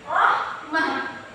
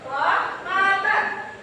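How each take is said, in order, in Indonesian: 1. Kata ini berakhiran bunyi h di akhir. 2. Kata ini berakhiran -atan.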